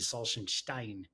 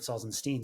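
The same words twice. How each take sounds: First: The name is said with a German pronunciation. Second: The name is said with an English pronunciation. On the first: "if we were in Germany, it would be"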